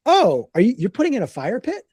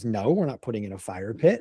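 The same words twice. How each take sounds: First: Higher-pitched daughter's curious question; imitating a surprised daughter. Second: Low, soft dad's brush-off; imitating a dad quietly dismissing the idea; dismissive denial. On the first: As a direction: ask it with a rising, puzzled lilt. Daughter's puzzled question, acted. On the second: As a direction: drop low and wave it away. Dad's denial answers the daughter.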